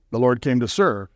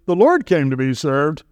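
First: Settled, lower correction with a firm fall on serve. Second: Posed as a false claim with a questioning rise; wrong version, rising. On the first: Preacher correcting the congregation's mistaken belief, falling on serve. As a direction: set it right, bring serve down firmly. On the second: Preacher voicing the wrong belief to his congregation, rising tune. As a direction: say it like the mistaken idea, tune lifting on Lord. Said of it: "No, the Lord came to serve". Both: Shown as a demonstration.

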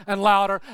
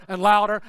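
The two takes are said the same way.

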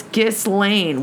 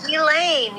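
First: "Ghislaine" with the S sounded, giss-LANE; S pronounced. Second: "Ghislaine" said gee-LANE, no S; higher-pitched correction, "Ghislaine" as gee-LANE; silent S. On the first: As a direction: say "Ghislaine" slowly with an audible S. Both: Shown as a demonstration.

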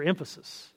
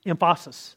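First: Said in the usual way. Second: "emphasis" with a broad "fah" in the middle; odd stress on emphasis. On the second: Shown as a demonstration. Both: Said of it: "is it for emphasis".

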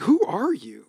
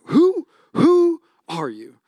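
First: Said in the usual way. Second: Slow, drawn-out, higher "who, who are you?"; mock bewildered. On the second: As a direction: stretch it out like you can't believe who this is. Mock stunned parent at sleepy kid.

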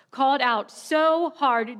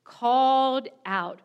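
First: "so" stretched and leaned on, a bit louder; stress on so hard. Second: Said in the usual way. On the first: Real, not acted. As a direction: land hard on "so hard".

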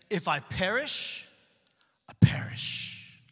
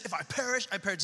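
First: Slow, hushed, weighty delivery; whispered solemn resolve; dramatic slow reading. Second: Said in the usual way. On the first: Shown as a demonstration. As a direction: let each word land slowly, almost breathed. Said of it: "one of the most boss, baller, epic verses". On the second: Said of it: "Esther says".

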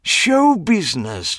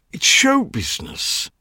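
First: High, slow, savoring words; grand showman. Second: High, fading show business; theatrical dandy. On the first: Clive proclaiming show business, high and slow. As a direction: roll it out like a marquee. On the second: Clive excusing himself, high sighing show business. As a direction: sigh the phrase lovingly. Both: A narrator's reading.

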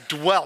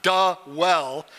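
First: "dwell" as one quick syllable, D into W; no vowel between D and W in "dwell"; corrective, single-beat "dwell". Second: "da well" broken into two separate beats; mimicked mistake, exaggerated "da well"; two syllables, da well. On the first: Retold or imitated. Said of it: "It's one syllable". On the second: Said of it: "It's not".

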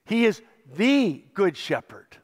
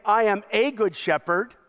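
First: The said with weight, set against a; stress on THE. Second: The wrong version, with a as just one of many; wrong version, a stressed. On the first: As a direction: lean on the in He is the good shepherd. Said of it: "not just one of many". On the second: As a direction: say I am a good shepherd as the rejected reading. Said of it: "He doesn't say". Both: Shown as a demonstration.

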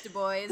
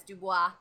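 First: Put-on "Du Bois" as doo-BOYS; local pronunciation. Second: "Dubois" as doo-BWAH; French pronunciation. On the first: Everyone correcting the speaker, "Du Bois" as doo-BOYS. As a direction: end "Du Bois" like English "boys". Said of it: "And everyone's like". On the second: Shown as a demonstration. Recalling own mistaken reading, "Dubois" as doo-BWAH. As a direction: end "Dubois" on French wah, silent S. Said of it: "that's the way it looks".

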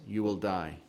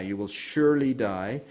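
First: Said in the usual way. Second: "surely" leaned on with a rising tune; stress on surely. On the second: Shown as a demonstration. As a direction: press hard on "surely" to keep the warning strong. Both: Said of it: "She takes out that emphasis on surely".

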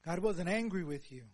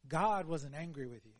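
First: "wasn't" hit firmly, falling tune; stress on wasn't. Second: "God" stressed, falling at the end. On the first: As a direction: deny it by punching "wasn't". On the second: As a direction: open with a firm "God". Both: Shown as a demonstration.

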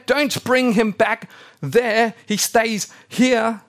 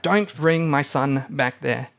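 First: Higher, louder, slow and insistent; Abraham freaking out. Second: Said in the usual way. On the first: Retold or imitated. Abraham ordering the servant not to take Isaac back, slow alarmed shout. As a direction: lay down the law, slow and alarmed. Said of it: "Abraham kind of freaks out". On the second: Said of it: "Why is Abraham freaking out?".

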